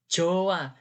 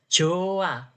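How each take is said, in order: The two takes are said the same way.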